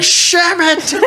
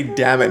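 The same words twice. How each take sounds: First: High yelped Sham it; old man's yelp. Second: Said in the usual way. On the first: Retold or imitated. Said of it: "He was like". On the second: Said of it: "he didn't even say".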